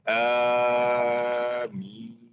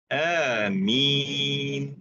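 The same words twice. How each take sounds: First: The first vowel is held longer than two beats. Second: The first vowel is held for two beats.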